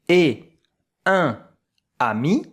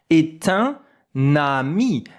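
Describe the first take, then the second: First: The words are separate, with no t sound. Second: A t sound links est to un. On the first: The speaker calls it wrong. "I don't say est un ami" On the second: The speaker calls it right. "Here I make the link"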